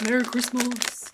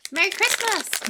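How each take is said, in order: First: Mock festive greeting. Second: High, loud festive call; festive cheer. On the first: Same greeting again, much lower. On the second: Pretend. Streamer greeting viewers for Christmas, excited high call.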